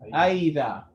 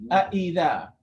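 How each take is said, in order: First: The second glottal stop is smoothed into a vowel. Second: Both glottal stops are pronounced clearly and separately. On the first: The speaker calls it wrong. "If you pronounce it like an alif" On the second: The speaker calls it right. "both separate"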